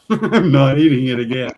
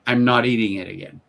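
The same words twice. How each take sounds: First: I'm not eating it again said louder through a laugh; laughing repeat. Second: Said in the usual way. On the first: Real, not acted. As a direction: relish the punchline while laughing. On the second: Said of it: "I said".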